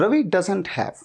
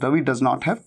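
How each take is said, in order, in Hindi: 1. Does not को जोड़कर एक ही शब्द में बोला जाता है। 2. Does not को दो अलग-अलग पूरे शब्दों की तरह बोला जाता है।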